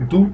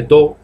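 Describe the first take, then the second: First: "do" said as "du"; pronounced with U. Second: "do" with a Spanish o, like "doh"; spelled-out mispronunciation. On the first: Teacher shows the correct sound, "do" rhyming with "too". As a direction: give "do" an oo vowel. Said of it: "se pronuncia con U". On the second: Teacher shows the mistake, "do" said as "doh". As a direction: read "do" as written, with an o. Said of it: "no se dice do". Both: Shown as a demonstration.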